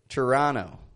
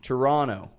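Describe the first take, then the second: First: The O vowel is an unrounded short O. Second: The O vowel is rounder and lower. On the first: "An American, however" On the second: "we don't say Toronto, but Toronto"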